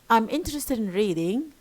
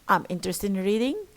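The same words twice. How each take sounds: First: The voice falls then rises. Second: The voice rises at the end.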